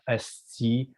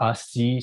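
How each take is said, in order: First: "esti" starting with an E sound; "esti" with first vowel as in "best"; Quebecois swear variant. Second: "asti" starting with an A sound; "asti" with an open A first; Quebecois swear variant. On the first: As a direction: say "esti", opening on "ess". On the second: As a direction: say "asti", opening on "ass". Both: Shown as a demonstration. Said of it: "changed a little bit".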